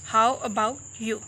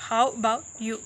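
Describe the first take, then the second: No difference in how they are said.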